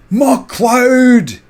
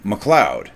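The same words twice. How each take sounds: First: High, loud Scottish battle cry of MacLeod; Scottish clansman shout. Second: Said in the usual way. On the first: Retold or imitated. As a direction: bellow MacLeod like a Highland clansman. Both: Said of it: "they'd say it like".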